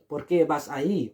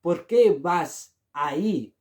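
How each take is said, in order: First: Said in the usual way. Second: ¿Por qué vas ahí? said slowly; slow model phrase. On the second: Shown as a demonstration. Teacher slowly models ¿Por qué vas ahí? for learners. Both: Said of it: "the answer is".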